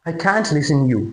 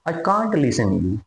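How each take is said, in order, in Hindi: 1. "Can't" में सपाट "a" स्वर है, अमेरिकन तरीके से। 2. "Can't" में खुला "ah" स्वर है, ब्रिटिश तरीके से। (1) "इस तरीके से वो बोलेगा" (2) "और अगर ब्रिटिश बोलेगा"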